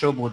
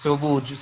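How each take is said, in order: First: It starts with a softer, sh-like sound. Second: It starts with a sharp, English-like s sound. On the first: The speaker calls it right. "বলতে হবে সবুজ স" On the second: The speaker calls it wrong. "সবুজ স এরকম বলা যাবে না"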